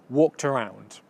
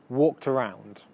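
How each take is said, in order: Both takes have the same delivery.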